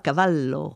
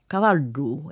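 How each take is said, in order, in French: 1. Le son consonantique du milieu est un double L. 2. Le son consonantique du milieu est un D rétroflexe. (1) "et non pas" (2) "c'est deux L par deux D"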